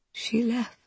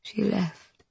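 First: Soft and slightly higher; hushed grief, rising. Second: Soft, hollow, grieving; hushed grief. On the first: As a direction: repeat it lost in grief. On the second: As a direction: let it fall away quietly. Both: Acted. Grieving Queen repeats herself.

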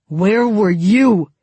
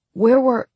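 First: Slow, loud, menacing snarl; angry snarl. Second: High, loud start of a question; question cut short. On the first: Tolia pins Mal to the wall, snarling slowly. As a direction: snarl each word slowly, in his face. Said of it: "he snarled into Mal's face". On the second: Mal starts to question them on their return, cut short. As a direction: begin asking, then get cut off. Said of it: "Mal began". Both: A narrator's reading.

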